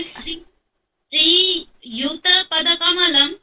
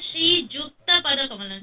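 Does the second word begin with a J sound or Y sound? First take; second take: Y sound; J sound. First: The second word begins with a y sound. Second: The second word begins with a j sound. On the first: "जैसे" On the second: "तो हमारे ऊपर ऐसे होता है"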